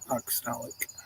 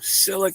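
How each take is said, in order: First: The word is said with all its syllables. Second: The word is said with its opening syllable dropped. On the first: The speaker calls it right. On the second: The speaker calls it wrong.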